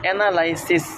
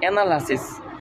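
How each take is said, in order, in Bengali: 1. তৃতীয় উচ্চারণাংশে পূর্ণ 'eye' স্বরধ্বনি আছে। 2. তৃতীয় উচ্চারণাংশে একটি ছোট, হালকা স্বরধ্বনি আছে। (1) "এটা হচ্ছে ভুল প্রনাউন্সিয়েশন" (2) "কারেক্ট প্রনাউন্সিয়েশন"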